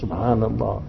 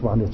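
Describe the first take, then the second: First: The word is said slowly and clearly. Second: The word is said quickly and slurred. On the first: The words are recited with attention. The speaker calls it right. "read it also nicely" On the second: The words are rattled off without attention. The speaker calls it wrong. "we hardly can read it"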